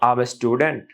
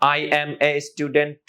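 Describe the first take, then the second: First: I and am merge into one short syllable. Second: I and am are said as two separate words.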